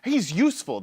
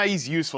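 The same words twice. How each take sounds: First: It is said in a warm, approving tone. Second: It is said in a flat, dismissive tone. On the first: The player is genuinely valuable. "That's complimentary" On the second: The player is actually bad. "That means he, he stinks"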